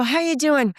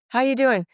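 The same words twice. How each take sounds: First: Higher, louder cheery hello; upbeat phone hello; bright greeting. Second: Reluctant greeting. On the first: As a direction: sing out the question. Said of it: "I go". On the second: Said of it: "the phone call you don't wanna take". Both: Retold or imitated.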